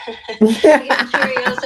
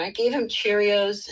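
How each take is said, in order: First: Laughing, louder and slower. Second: Said in the usual way. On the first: Real, not acted. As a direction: say it through a laugh. Repeats line laughing louder.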